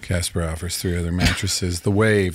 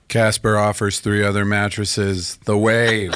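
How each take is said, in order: First: It is said with less enthusiasm. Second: It is said with high enthusiasm.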